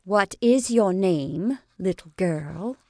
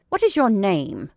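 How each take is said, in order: First: Slow, gentle question; more gently. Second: Peremptory, louder question; aggressive demand. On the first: Lottie asks the frightened girl again, slow and gentle. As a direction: ease off and ask her kindly. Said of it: "but more gently". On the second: Lottie peremptorily demands the girl's name, aggressive. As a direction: demand her name like an order. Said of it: "Lottie began to be aggressive". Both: Acted.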